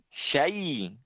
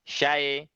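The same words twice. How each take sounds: First: The final vowel is a clear 'i' sound. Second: The final vowel comes out like an 'e'. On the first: The speaker calls it right. "contohnya pada kata ini syai" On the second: The speaker calls it wrong. "keluarnya e ... itu juga kurang tepat"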